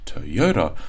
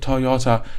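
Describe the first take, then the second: First: Stressed and unstressed syllables contrast clearly. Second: All syllables get equal stress. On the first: The speaker calls it right. "there's definitely this up-down stress" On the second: The speaker calls it wrong. "it sounds like stress is equal on every single word"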